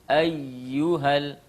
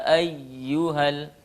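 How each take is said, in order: No difference in how they are said.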